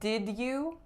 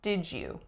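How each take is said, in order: First: The d and y are said separately. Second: The d and y blend into one sound. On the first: "instead of did you" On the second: "it's really common, although not mandatory, to say did you"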